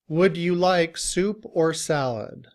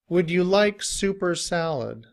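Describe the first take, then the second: First: The word 'or' is said fully and clearly. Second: The word 'or' reduces to 'er' joined to 'soup'. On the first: "We have this sentence in citation form" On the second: "when we say it quickly with the word soup, it sounds like super"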